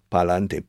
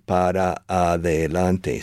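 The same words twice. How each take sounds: First: "Pa'lante" in three quick syllables; Spanish super contraction. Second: Slow, every syllable of "para adelante" separate; full six syllables. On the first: Teacher shows Spanish contraction, clipped three-syllable "Pa'lante". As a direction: squeeze it into "Pa'lante". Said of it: "super contractions". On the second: Teacher counts six syllables, slow separated "para adelante". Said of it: "reducing six syllables to only three". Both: Shown as a demonstration.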